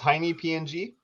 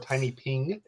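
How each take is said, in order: First: PNG is spelled out as three separate letters. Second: PNG is said as one word, ping.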